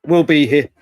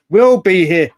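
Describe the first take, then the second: First: Said in the usual way. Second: Louder, pressing "We'll be here."; emphatic repeat. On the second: Real, not acted. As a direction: land "We'll be here." firmly, a touch louder. Repeating the promise, punching it.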